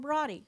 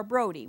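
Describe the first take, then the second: First: Broddy with a short, open o, like "body"; alternative pronunciation. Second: Brody with a long o, as in "road"; alternative pronunciation. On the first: Lecturer giving a school's name, Broddy pronounced BRAH-dee. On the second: Lecturer offering the other version, Brody pronounced BROH-dee. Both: Shown as a demonstration. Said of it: "whichever way you want to pronounce it".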